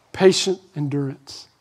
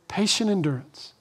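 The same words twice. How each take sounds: First: Said in the usual way. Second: Hushed echo of "Patient endurance"; soft repeat. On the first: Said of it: "repeated phrase". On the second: Shown as a demonstration. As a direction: repeat "Patient endurance" much softer, almost to yourself. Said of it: "repeated softly".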